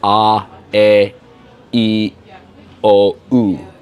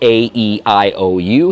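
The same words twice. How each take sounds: First: The vowel letters have Serbian pure vowel names. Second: The vowel letters have American English names. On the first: "Here it's" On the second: "Like in U S A, it's"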